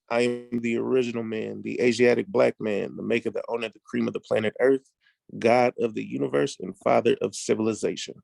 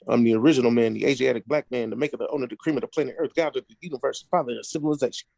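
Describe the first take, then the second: First: It is said slowly. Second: It is said at normal speed.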